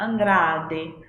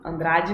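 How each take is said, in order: First: The name is said with Italian pronunciation. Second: The name is said with Portuguese pronunciation. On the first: "no italiano seria Andrade" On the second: "no português"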